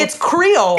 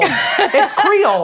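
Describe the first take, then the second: First: Said in the usual way. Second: Slow, high Louisiana Creole drawl; It's Creole drawn out slowly, high; Louisiana accent. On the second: Shown as a demonstration.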